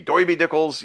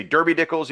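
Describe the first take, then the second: First: "Doiby" with an oy vowel for er; "Doiby Dickles" the Brooklyn way; Brooklyn pronunciation. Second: "Derby" said with a plain er vowel; "Derby Dickles" in standard English; plain pronunciation. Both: Shown as a demonstration. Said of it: "you could say".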